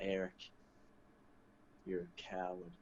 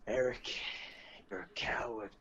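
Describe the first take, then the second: First: It is said calmly, with a smile. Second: It is yelled loudly and angrily.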